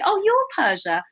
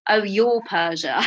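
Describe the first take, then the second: First: It sounds pleased and impressed. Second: It sounds wary and suspicious.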